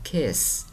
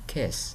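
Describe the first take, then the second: First: The vowel is long and heavy. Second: The vowel is short and light. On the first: The speaker calls it wrong. "chứ đừng có kiss" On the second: The speaker calls it right. "chữ I trong chữ kiss thì mình đọc ngắn, nhẹ"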